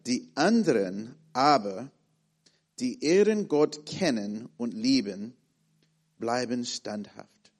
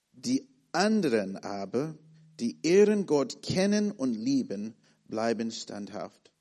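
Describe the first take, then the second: No difference in how they are said.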